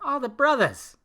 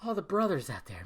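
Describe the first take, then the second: First: "brothers" said as "brothas", high and louder; "brothers" ending in A. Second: Said in the usual way. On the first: Shown as a demonstration. Podcast host calls out to all the brothers, "brothers" pronounced "brothas". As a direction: drop the R in "brothers", end it on an open A. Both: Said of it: "I'm using the A at the end".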